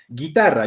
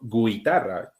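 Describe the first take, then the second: First: The u is silent after the g. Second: The u is pronounced as a w after the g. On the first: The speaker calls it right. "acá no hay pronunciación" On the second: The speaker calls it wrong. "yo no estoy diciendo guitarra"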